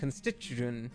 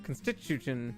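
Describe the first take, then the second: First: The stress falls on an unexpected syllable. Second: The stress falls on an unexpected syllable.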